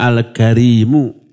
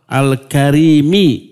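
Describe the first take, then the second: First: The word ends with a u vowel. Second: The word ends with an i vowel. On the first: "yang pertama al-karimu" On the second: "membaca dengan kasroh al-karimi"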